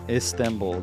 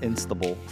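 First: The word begins with 'Ist', no n sound. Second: The word begins with 'Inst', an added n sound. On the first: The speaker calls it right. "The S is before the N" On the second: The speaker calls it wrong. "not Istanbul"

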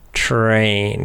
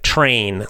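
First: The word is said slowly, sounds drawn apart. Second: The word is said quickly, sounds blended together. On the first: "if you really slow it down" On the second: "You're just putting them together very fast"

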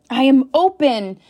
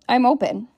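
First: It is said firmly, with strong conviction. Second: It is said weakly, like a doubtful question. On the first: The speaker believes the statement. The speaker calls it right. "how are you saying them?" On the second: The speaker does not believe the statement. The speaker calls it wrong. "Or are you just"

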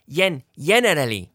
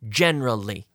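First: The word is said with four full syllables. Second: The word is said with only three syllables. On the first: The speaker calls it wrong. "we don't say generally" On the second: The speaker calls it right. "Three syllables"

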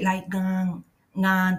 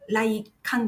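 First: The middle consonant sounds closer to a G. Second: The middle consonant sounds like a K. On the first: The speaker calls it right. "ちょっとどっちかというとG の音に近くなります" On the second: The speaker calls it wrong. "来館ではなくて"

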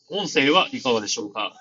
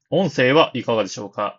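First: The voice is recorded over cafe background noise. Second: The voice is recorded against a silent background. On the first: "ただいまカフェ店内の音を流して録音しています。" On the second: "ただいま無音状態で録音しています。"

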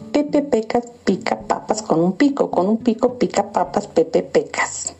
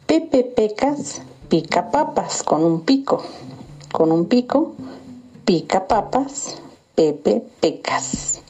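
First: It is said at a fast pace. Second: It is said at a slow pace.

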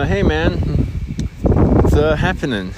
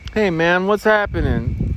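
First: It is said awkwardly, with a hesitation. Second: It is said smoothly, without hesitation.

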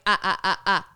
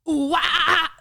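First: The sounds are clipped and slower, without breath. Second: The sounds are breathy and quicker.

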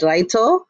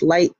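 First: The name is said with Japanese sounds. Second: The name is said with English sounds. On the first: "In the original Japanese" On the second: "in English"

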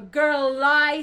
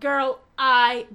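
First: The L runs smoothly into the I. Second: A glottal break separates the L and the I. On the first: The speaker calls it right. "we're going to carry the L into the I" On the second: The speaker calls it wrong. "not girl I, glottal attack"

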